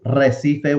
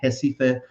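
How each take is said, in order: First: The word begins with an R sound. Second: The word begins with an H sound. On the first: "It's Recife, which means reef" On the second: "they pronounce it Recife"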